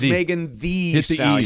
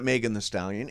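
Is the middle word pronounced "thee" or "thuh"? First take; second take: thee; thuh. First: The middle word is said as "thee". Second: The middle word is said as "thuh". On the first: The speaker calls it right. "Two E's" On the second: The speaker calls it wrong. "It is not"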